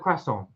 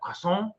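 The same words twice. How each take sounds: First: The word is said with an English accent. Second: The word is said with a French accent. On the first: The listener did not understand it. The speaker calls it wrong. "said it in English" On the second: The listener understood it. The speaker calls it right. "spoken a French accent"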